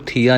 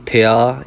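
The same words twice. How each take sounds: First: ਥੀਆ with a long ee, thee-aa. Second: ਥਿਆ with a short i, thi-aa. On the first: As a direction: stretch the first vowel of ਥੀਆ to ee. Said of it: "ਇਹਨੂੰ ਥੀਆ ਨਹੀਂ ਕਹਿਣਾ". (ਥੀਆ ਵਿੱਚ ਲੰਮੀ ਬਿਹਾਰੀ ਦੀ ਆਵਾਜ਼) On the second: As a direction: keep the vowel short in ਥਿਆ. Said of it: "ਇੱਥੇ ਥਿਆ ਹੈ". (ਥਿਆ ਵਿੱਚ ਥੱਥੇ ਨੂੰ ਛੋਟੀ ਸਿਹਾਰੀ) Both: Shown as a demonstration.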